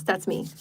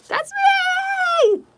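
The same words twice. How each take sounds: First: Said in the usual way. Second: Much higher, louder, gleeful cry; excited shout. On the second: Real, not acted. Healer cheering about her PayPal link, excited shout. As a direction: burst out with joy.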